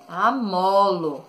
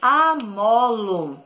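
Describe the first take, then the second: First: Said in the usual way. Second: Amolo stretched slowly, syllable by syllable; slow syllable stress. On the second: Shown as a demonstration. Teacher giving pupils a new word, slow and stretched. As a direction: draw out amolo for young pupils.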